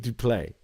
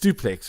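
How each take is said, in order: First: It is said French-style, ending on a vowel. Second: It is said English-style, ending with the x sound. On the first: The speaker calls it wrong. "you always pronounce it duplay" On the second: The speaker calls it right. "it's not French, it's duplex"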